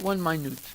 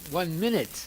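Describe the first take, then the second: First: Minute is stressed on its second syllable. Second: Minute is stressed on its first syllable. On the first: The speaker calls it wrong. "he doesn't know English" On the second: The speaker calls it right. "the correct pronunciation is one minute"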